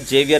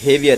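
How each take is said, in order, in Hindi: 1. नाम की शुरुआत J ध्वनि से होती है। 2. नाम की शुरुआत H ध्वनि से होती है। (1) "तो यहाँ पर जेवियर नहीं है ये" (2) "बल्कि हेवियर है ये"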